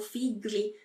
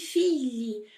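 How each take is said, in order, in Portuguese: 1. O gl não é um som palatal como o lh. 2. O gl é um som palatal, como o lh. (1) "e não figli" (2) "G L em italiano vai ter o som do nosso L H"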